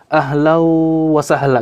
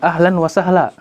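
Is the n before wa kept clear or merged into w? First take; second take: merged; kept. First: The n merges into the following w sound. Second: The n is pronounced clearly before wa. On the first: This applies Quran recitation rules to everyday speech. The speaker calls it wrong. "Tidak mungkin kita mengatakan" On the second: This is ordinary everyday speech. The speaker calls it right. "Kita mengatakan"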